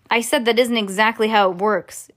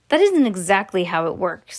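First: Mild narrated shout; raised-voice insistence, understated. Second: Said in the usual way. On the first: A narrator's reading. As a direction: repeat it a touch more forcefully. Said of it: "shouted Mike Teavee". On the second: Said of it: "said Mike Teavee".

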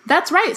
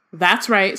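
First: Cheerful and pitched much higher. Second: Calm, pleasant agreement. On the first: Dumbledore cheerfully admitting the plot to Fudge, high and sunny. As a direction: chirp it out brightly, enjoying it. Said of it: "said Dumbledore cheerfully". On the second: Dumbledore pleasantly owning up to Fudge, lightly voiced. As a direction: agree as if it's nothing at all. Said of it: "said Dumbledore pleasantly". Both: A narrator's reading.

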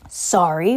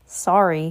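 First: Barked question, rising at the end; mild bark. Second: Short, quick apology with falling end. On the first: Giant answering the boy's apology, mildly barked. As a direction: throw it back as an incredulous question, lightly barked. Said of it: "barked Hagrid". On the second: Boy apologizing to the giant, quickly. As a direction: say it briefly, dropping at the end. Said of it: "he said quickly". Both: A narrator's reading.

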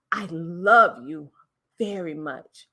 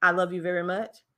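First: Slow, low, with "love" hit and "very" stretched; stress on love and very. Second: Plain, even run through the words; monotone. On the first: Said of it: "words that I hit and I elongated". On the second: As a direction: say it with no word stressed. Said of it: "hear the difference on how that sound versus saying". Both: Shown as a demonstration.

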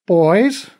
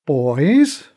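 First: A raised, chiding call to the two men; reproachful. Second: A louder, clipped call, patience running out; tired of waiting for them; impatient. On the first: Mom reproaching two bickering old masters. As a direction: scold them with one word. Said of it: "Mom said in a reproachful tone". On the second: Mom cutting off the masters' squabble, impatient. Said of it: "This time she sounded impatient". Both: A narrator's reading.

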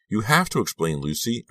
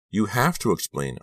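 First: Higher, distressed plea; trembling voice. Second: Higher, insistent plea; cried out. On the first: Girl repeats her demand to Lucy, mildly trembling plea. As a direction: plead with a touch of tremble, pitch lifted. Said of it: "repeated in a trembling voice". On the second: Girl presses Lucy for an explanation, high insistent cry. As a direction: cry "have" out high, urging an answer. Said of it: "I cried". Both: A narrator's reading.

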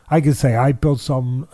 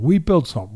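First: I built something, weight on I; stress on I. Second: We built something, weight on We; stress on We. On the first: Trainer testing the wrong claim, stressing I. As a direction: lean on the word I to claim it alone. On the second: Trainer correcting himself, stressing We. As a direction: push the word We as the correction. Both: Shown as a demonstration. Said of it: "No, that would be wrong".

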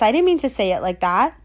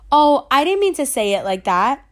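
First: Said in the usual way. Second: Breathy whisper, no voice at all; whispered aside. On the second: Retold or imitated. Friend backpedals to narrator in a whisper. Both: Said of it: "And she was like".

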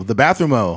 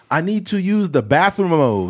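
First: Fake foreign language. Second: Adding o to English words, higher; mock Spanish with o endings; fake foreign language. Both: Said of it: "they'll be like".

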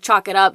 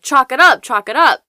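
First: Said in the usual way. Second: Higher, much louder mock yell; retold shouting. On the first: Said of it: "Bobby explains that". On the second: Mark banging on Bobby's door, imitated loud shout. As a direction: bark the chant through the door. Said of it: "Mark keeps shouting".

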